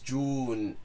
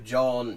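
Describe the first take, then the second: First: The vowel is an u sound. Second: The vowel is a long o sound. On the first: This is the informal spoken form. "become an u sound" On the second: This is the formal form. "in proper formal speech have a long o sound"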